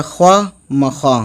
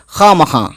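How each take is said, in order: First: "ख्वा मखा" with the written w sounded, khwa; spelling pronunciation. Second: "खा मखा" said with plain long khaa, no w; silent w. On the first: Teacher showing how the word is written, spelling pronunciation. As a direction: read ख्वा मखा letter by letter, with a w glide. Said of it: "लिखा है लेकिन हम पढ़ेंगे". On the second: Teacher showing how the word is read, silent w. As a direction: drop the w in खा मखा, a clean kha. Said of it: "लेकिन हम पढ़ेंगे". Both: Shown as a demonstration.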